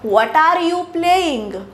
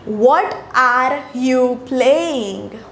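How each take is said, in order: First: The words are run together smoothly and fluently. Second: The words are said separately, without smooth flow. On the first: The speaker calls it right. "असं म्हणतेय मी" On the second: The speaker calls it wrong. "असे उच्चार आहेत का माझे की"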